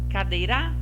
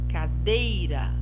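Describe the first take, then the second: First: The stress is on the last syllable, ra. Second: The stress is on the middle syllable, dei. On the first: The speaker calls it wrong. "Primeiro a última" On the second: The speaker calls it right. "O dei você pronunciou mais forte"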